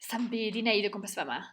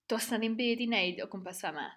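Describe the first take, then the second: First: It is said very fast and reduced. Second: It is said at a medium pace.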